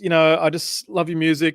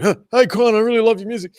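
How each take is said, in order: First: Said in the usual way. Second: High, loud, overeager fan gushing; really intense. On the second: Retold or imitated. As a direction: pour it on like a starstruck fan. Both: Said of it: "I was, like, really intense".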